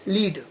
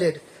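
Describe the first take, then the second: First: The vowel is a long 'ee' sound. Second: The vowel is a short 'e' sound. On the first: "इसको मैंने बोला लीड" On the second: "इसको बोला लेट"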